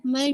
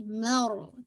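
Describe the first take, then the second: First: मर short, the r not settled; wrong articulation. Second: मर drawn out on a settled r; correct firm raa. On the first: Teacher repeats the mistake, wrong reading. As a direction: clip the r of मर short. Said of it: "मर नहीं". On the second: Teacher corrects the mistake, firm reading. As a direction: hold the r of मर. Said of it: "रा को आप थोड़ा सा जमाओं". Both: Shown as a demonstration.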